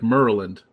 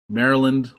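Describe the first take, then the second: First: The first vowel is centralized, said differently. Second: The first vowel is open, said normally.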